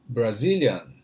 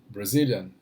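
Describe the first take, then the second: First: It is said more slowly. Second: It is said at normal speed.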